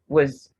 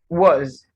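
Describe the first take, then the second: First: The vowel is reduced to a schwa. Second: The vowel is a full O sound. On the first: The word is in connected speech. "The schwa sound replaces the o sound" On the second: The word is said on its own. "giving the sound O"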